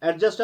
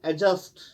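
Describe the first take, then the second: First: एडजस्ट with the d fully sounded, "ed-just"; wrong pronunciation. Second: एडजस्ट said with the d silent, like "ejust"; correct pronunciation. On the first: Teacher demonstrating the mistake to avoid. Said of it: "वो गलत है". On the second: Teacher showing students the right pronunciation. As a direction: drop the d sound in एडजस्ट. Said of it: "एडजस्ट अगर हम पढ़ेंगे वो गलत है". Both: Shown as a demonstration.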